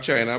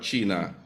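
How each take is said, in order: First: The word has an English pronunciation. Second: The word has a Spanish pronunciation. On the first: The speaker calls it wrong. "You don't say" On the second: The speaker calls it right.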